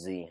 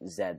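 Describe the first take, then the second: First: The letter is said in an American way. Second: The letter is said in a non-American way.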